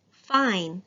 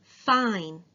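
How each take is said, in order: First: "Fine" with a long I; teacher modelling long I. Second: "Fine" repeated with a long I; teacher repeating the word. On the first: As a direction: stretch the I in "Fine". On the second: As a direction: lengthen the I in "Fine". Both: Shown as a demonstration. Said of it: "Long I".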